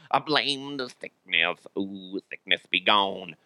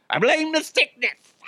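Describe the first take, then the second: First: Slow, soft, put-on spooky voice; mock incantation. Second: Very high-pitched silly complaint; mock wail. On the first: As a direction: banish it with a drawn-out, hushed chant. Same blame redone as mock incantation. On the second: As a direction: blame it in a squeaky, put-on voice. Mock-blames his illness, silly high voice.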